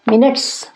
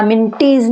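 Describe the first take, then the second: First: मिनट्स as two syllables, no ee sound; silent e. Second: मिनटीज with a voiced "teez" ending; wrong spelling pronunciation. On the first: Teacher modelling pronunciation for students, मिनट्स with silent e. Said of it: "यहाँ पर ई silent है". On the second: Teacher showing what not to say, मिनटीज ending in "teez". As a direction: sound out the e in मिनटीज as ee. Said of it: "या मिनटीज नहीं है". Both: Shown as a demonstration.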